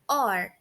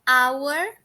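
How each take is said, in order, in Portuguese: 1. Soa como a palavra 'or'. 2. Soa como a palavra 'hour'. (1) "quando ele se atribui a outras palavras, ele tem uma pronúncia de or" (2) "A pronúncia de our quando está sozinho é essa"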